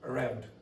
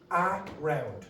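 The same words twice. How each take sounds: First: The first syllable is a quick, quiet uh. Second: The first syllable has a full, clear vowel. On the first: The speaker calls it right. "pronounced with uh... quiet and it's going to be quick" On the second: The speaker calls it wrong. "It will not be pronounced around. Nobody does that"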